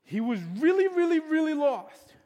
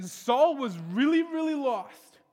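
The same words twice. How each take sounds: First: "really, really, really lost" built to a higher, louder peak; stronger stress. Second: "really" repeated, drawn out and rising; "really, really lost" with the second "really" higher; stressed really. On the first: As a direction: hammer "really, really, really" louder each time. Preacher repeats, more intense. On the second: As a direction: lean on "really" both times, slowly. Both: Acted.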